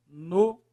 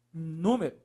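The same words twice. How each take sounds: First: "Número" split into NÚ, ME, RO with long gaps; syllable by syllable. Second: Said in the usual way. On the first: Shown as a demonstration. Teacher separating the next word, "Número" syllable by syllable. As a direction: say "Número" one syllable at a time.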